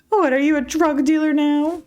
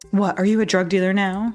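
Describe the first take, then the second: First: It is said in a high, girlish put-on voice. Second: It is said in the speaker's normal voice.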